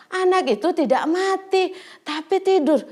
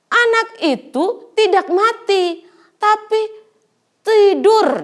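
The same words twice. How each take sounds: First: Said in the usual way. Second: Firm declaration. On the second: Acted. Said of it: "Kata Tuhan Yesus".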